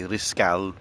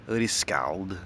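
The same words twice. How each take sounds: First: "Riscal" said French style, final d dropped; French pronunciation. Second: Said in the usual way. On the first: Shown as a demonstration. Correcting the dashboard word to a French "Riscal". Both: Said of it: "If I'm gonna be French about it".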